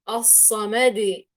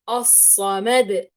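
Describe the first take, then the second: First: The final d bounce is drawn out long. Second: The final d bounce is short. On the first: The speaker calls it wrong. "إني أمط في الصوت تماما وأطول عن حده" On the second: The speaker calls it right. "بهذه الطريقة"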